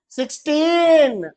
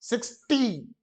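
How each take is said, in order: First: sixteen said slowly with टीन drawn out and higher; stressed teen. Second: Said in the usual way. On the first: Shown as a demonstration. Teacher showing kids how to pronounce sixteen, slow and stressed. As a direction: stretch out sixteen, leaning on टीन. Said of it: "बेटा, टीन लगा, टीन". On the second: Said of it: "बेटा, टीन लगा".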